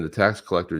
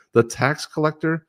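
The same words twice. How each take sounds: First: Said in the usual way. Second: The tax collector, drawn out, pitched up high in mock disbelief; mock incredulous. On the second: Host scoffing at the union endorsing Harris, drawn-out mock disbelief.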